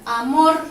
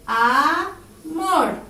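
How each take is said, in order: First: "amor" with MOR hit louder; stress on last syllable. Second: "Amor" pulled apart as A, MOR, with a gap; slow "Amor", long A, then a strong MOR; split into syllables. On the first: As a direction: punch the final syllable of "amor". (amor con la voz cargada en MOR) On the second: (amor separado en sílabas, cargando MOR) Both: Shown as a demonstration. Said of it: "Se carga la voz".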